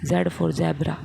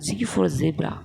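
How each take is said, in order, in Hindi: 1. अक्षर को zed कहा जाता है। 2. अक्षर को zee कहा जाता है। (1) "हमने तो जेड पढ़ा था" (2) "आजकल पढ़ रहा है जी फॉर जेब्रा"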